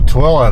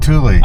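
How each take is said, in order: First: The name is said like 'Twila'. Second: The name is said like 'Thule'. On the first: The speaker calls it right. "that's how you pronounce it" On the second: The speaker calls it wrong. "I was calling it Thule"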